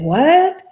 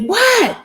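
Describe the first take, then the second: First: It is said in a confused, puzzled tone. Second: It is said in an angry, sharp tone. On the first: The speaker does not understand. "that makes me look like I'm confused" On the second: The speaker is upset. "then angry"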